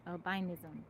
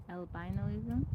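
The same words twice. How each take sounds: First: "Albinism" said as al-bin-ism, no o; correct pronunciation. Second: "albinoism" said with an extra o, like albino-ism; unsure pronunciation. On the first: Host settling on the correct form "Albinism". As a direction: land the word cleanly: "Albinism". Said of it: "There we go". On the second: Host guessing at the word, saying "albinoism" uncertainly. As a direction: fumble toward the word as "albinoism". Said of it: "How you say it?". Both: Shown as a demonstration.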